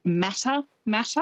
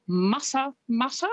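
First: "Mata Mata" with flat English a's, matter matter; "Mata Mata" mispronounced the English way; anglicised Mata Mata. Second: "Mata Mata" with short open Maori vowels, muh-tuh; "Mata Mata" pronounced correctly in Maori. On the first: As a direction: say "Mata Mata" the wrong English way, mat-a mat-a. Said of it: "people will pronounce it". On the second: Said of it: "but it's". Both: Shown as a demonstration.

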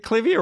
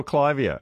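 First: "Clivia" with a short i, KLIV-ee-uh; short-i pronunciation. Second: "Clivia" with a long i, KLY-vee-uh; first syllable of "Clivia" like "climb"; long-i pronunciation. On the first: Host asking gardener which pronunciation, "Clivia" as KLIV-ee-uh. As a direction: say "Clivia" to rhyme with trivia. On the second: Host offering the alternative, "Clivia" as KLY-vee-uh. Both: Shown as a demonstration. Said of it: "is it pronounced".

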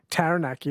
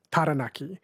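First: "Taranaki" the English way, A as in cat; anglicised vowels. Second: "Taranaki" the Māori way, each A as ah; Māori vowels. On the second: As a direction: say "Taranaki" with open ah vowels, not the A of cat. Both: Shown as a demonstration. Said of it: "they don't have the A sound like cat".

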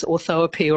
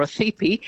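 First: Orthoepy said in full, with O and E as separate vowels; pronunciation variant. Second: Othepi in a shorter form, O and E run into one vowel; alternative pronunciation. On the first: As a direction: give orthoepy its longer form, or-tho-e-py. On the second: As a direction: say othepi compactly, as o-thepi. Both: Shown as a demonstration. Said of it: "it's pronounced many different ways".

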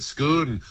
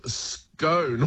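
First: SCONE said "skoon"; Scottish "Scoon". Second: SCONE rhyming with bone, drawn out; Australian town pronunciation. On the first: Retold or imitated. Word expert giving the founder's likely pronunciation, SCONE as "skoon". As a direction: say SCONE to rhyme with moon. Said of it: "he was probably saying it Scone". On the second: Shown as a demonstration. Word expert naming the local town, long-O SCONE. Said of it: "what we call Scone".

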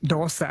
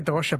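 First: "dosa" with s, the southern Kerala form; s pronunciation. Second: "dosha" with sh, as his parents say it; sh pronunciation. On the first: Host relaying the southern variant, "dosa" with s. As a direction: say "dosa" with an s sound. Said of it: "some people down south in Kerala say". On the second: Host relaying his parents' form, "dosha" with sh. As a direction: say "dosha" with a sh sound. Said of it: "we say dosha". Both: Shown as a demonstration.

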